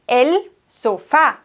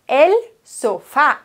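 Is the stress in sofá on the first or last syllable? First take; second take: last; last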